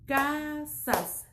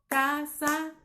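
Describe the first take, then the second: First: "Casas" in two beats, ca - sas; división silábica correcta. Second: "casas" broken as ca - sa - sss; división incorrecta. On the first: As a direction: stretch ca, pause, then sas in "Casas". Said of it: "no suena armónico". ("Casas" en dos golpes, ca - sas) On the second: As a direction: cut the final s off "casas" as its own hiss. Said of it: "no suena armónico, rompe la". ("casas" partido en ca - sa - s, con la s suelta) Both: Shown as a demonstration.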